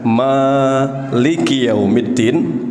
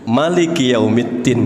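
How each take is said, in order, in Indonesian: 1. Vokal pertama Maliki dibaca panjang. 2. Vokal pertama Maliki dibaca pendek. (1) "dibaca panjang" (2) "bisa pendek"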